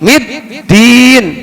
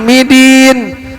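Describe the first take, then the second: First: The d sound is held and doubled. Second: The d sound is short and single. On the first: The speaker calls it right. "tekan middin" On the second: The speaker calls it wrong. "jangan midin"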